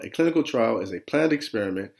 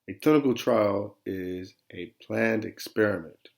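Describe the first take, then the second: First: It is read quickly, in one flow. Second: It is read slowly, in separate chunks.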